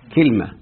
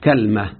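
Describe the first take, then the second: First: First vowel is i, no vowel after l. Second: First vowel is a, no vowel after l. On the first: "بكسر الكاف وسكون الايه، اللام" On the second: This is another dialect form of the same tribe. "بفتح الكاف وسكون اللام"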